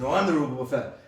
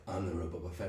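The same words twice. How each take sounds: First: Louder insistent answer; firm retort. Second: Low, soft take on the line; quiet claim. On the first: The rival insisting he is the real one, louder. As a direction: push back on the claim. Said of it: "And he's like". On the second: Imagined Boba Fett quietly claiming his own name. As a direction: say it under your breath. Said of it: "Boba Fett's like". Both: Retold or imitated.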